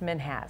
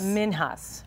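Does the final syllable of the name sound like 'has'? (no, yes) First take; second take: yes; no. First: The final syllable sounds like 'has'. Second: The final syllable does not sound like 'has'. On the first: The speaker calls it right. "They said it's Minhas. Minhas, like has" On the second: The speaker calls it wrong. "most people think it's Minhas"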